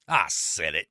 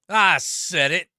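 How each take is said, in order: First: Said in the usual way. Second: Louder and slower, daring anyone to object; defiant, louder. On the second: Real, not acted. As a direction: plant your feet and repeat it slowly. Doubling down on hot take.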